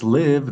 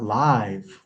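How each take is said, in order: First: The word rhymes with give. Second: The word rhymes with five. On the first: This is how the username is meant. The speaker calls it right. "saying it's live" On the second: This is the sense of streaming live. The speaker calls it wrong. "not live"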